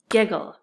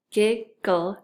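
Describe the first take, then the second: First: Said in the usual way. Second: "giggle" broken into gig, gull; split syllables. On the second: Shown as a demonstration. Teacher putting the parts together, still held apart. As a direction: say "giggle" in two separate beats. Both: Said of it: "when we put it together".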